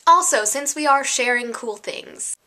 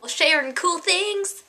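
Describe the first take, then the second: First: Said in the usual way. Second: High, drawn-out mock title call; segment announcement. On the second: YouTuber announcing a sharing segment, playful high call. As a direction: chirp it slowly like a segment title.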